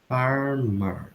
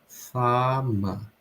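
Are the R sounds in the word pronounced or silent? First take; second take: pronounced; silent. First: Both R sounds in the word are pronounced. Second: Both R sounds in the word are dropped. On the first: "esses R's vão ser pronunciados" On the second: "esses dois R's nessa palavra não vão ser pronunciados"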